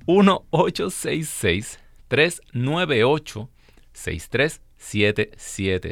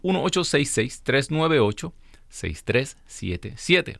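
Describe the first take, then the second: First: The number is said more slowly. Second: The number is said at normal speed.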